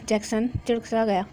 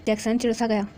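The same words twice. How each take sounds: First: चिड़सा misread as "chiṛksa" with an extra k; stumbling over चिड़सा as "chiṛksa"; misread word. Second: चिड़सा said cleanly as "chiṛsa"; corrected reading. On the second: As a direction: fix the slip, चिड़सा as "chiṛsa". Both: A narrator's reading.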